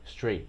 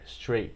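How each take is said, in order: Both takes have the same delivery.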